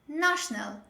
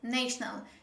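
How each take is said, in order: First: The first vowel is an open ah sound. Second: The first vowel is not an open ah sound. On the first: The speaker calls it right. "The correct way is national. ... this is again butterfly sound. Ah" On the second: The speaker calls it wrong. "most learners, they pronounce it like national"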